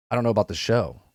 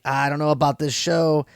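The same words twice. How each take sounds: First: Lower, softer, intrigued second take; dropped-down, quiet version of the doubt; different way. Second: Said in the usual way. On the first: Retold or imitated. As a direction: say it low and hushed, reconsidering. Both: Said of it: "in a different, complete different way now".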